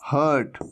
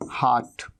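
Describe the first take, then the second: First: हर्ट with short central "uh", low; students' mistake. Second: हार्ट as "haat", low, falling; correct long AA. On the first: Teacher mimics students saying heart, short uh vowel. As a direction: say हर्ट as "hurt". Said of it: "कई students क्या कह देते हैं". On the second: Teacher answers own question, long aa in heart. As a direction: open हार्ट wide to AA. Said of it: "क्या कहते हैं?". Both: Shown as a demonstration.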